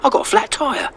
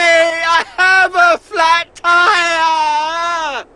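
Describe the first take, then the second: First: It is said calmly, without much drama. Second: It is said loudly, with much drama.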